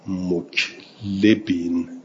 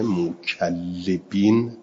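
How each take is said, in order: First: Muklibin, slow, with no doubled L; single lam in muklibin. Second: Mukallibin with the L held double; doubled lam in mukallibin. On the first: Teacher showing students the variant reading, muklibin with undoubled L. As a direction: slowly join K straight to a single L in muklibin. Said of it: "بدون تشدید". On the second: Teacher giving students the well-known reading, mukallibin with doubled L. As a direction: stress the geminated L in mukallibin. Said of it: "با تشدید". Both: Shown as a demonstration.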